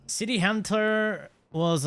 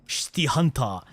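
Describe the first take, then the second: First: Said in the usual way. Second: Put-on City Hunter said as "Shiti Hanta" in a light Korean accent; a quick mock Korean accent on "City Hunter", final syllable "ta". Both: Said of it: "I did a Korean accent there".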